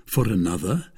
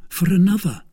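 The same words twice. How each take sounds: First: "another" rising at the end as a question; incredulous "For another?"; questioning echo. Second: "another" said high and loud, as a statement; high, emphatic "for another"; soubrette's firm answer. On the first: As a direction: echo "For another" in a usual-pitched voice, lifting the end. D'Artagnan echoes her in disbelief. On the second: Kitty answers his question. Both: A narrator's reading.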